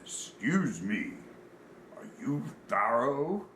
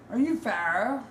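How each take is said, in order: First: Slow, deliberate big-man voice; drawn-out question from a giant stranger; very large man. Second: High, loud British voice; British accent, perky rising question. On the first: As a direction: imitate a huge man asking slowly. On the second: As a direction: mimic a little British man, pitched high. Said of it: "a little British man walks up". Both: Retold or imitated.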